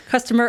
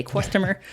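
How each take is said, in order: First: Said in the usual way. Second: "customer" slurred as "kwustomer", a w sneaking in after the k; fumbling "customer" into "kwus-tomer"; tongue-tied slip. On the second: Real, not acted. Host tripping over "customer" while explaining a quote, slurred "kwustomer". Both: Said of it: "I can't talk today".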